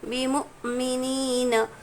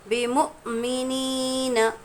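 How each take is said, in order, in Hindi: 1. बीच की आवाज़ में तेज़ अटकाव है, जैसे हिचकी लेते समय। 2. बीच की आवाज़ में तेज़ अटकाव है, जैसे हिचकी लेते समय।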